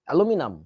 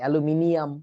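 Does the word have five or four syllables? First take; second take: four; five. First: The word is said with four syllables. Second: The word is said with five syllables. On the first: The speaker calls it right. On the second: The speaker calls it wrong.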